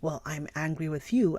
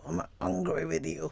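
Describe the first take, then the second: First: It is said in a plain, normal voice. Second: It is said through gritted teeth.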